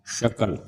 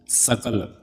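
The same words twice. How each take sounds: First: शकल with a clear palatal "sh", as in "shakal". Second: सकल with a clear dental "s", as in "sakal". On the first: Teacher contrasts two sibilants, palatal sh in शकल. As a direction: start शकल on "sh", not "s". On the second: Teacher contrasts two sibilants, dental s in सकल. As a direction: start सकल on a clean hissing "s", not "sh". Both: Shown as a demonstration. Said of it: "एक तालव्य बोलो".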